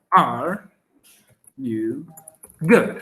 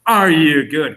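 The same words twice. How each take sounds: First: Each word spaced out. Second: Said in the usual way. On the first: Shown as a demonstration. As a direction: break the question into single words. (palabra por palabra, con pausas)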